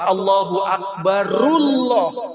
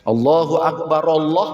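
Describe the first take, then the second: First: The final r carries a vowel into Allah. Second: The r stops, then Allah starts afresh. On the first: "wasol ke Allah jadi Allahu akbarullah" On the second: "ra-nya mati dihidupkan alifnya"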